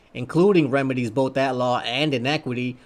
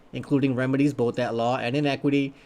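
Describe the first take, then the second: The two takes are said the same way.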